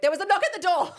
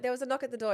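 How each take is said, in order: First: Higher, louder, laughing insistence on "There was a knock at the door"; insistent repeat. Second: Said in the usual way. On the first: Retold or imitated. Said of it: "I'm like". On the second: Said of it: "And I'm like".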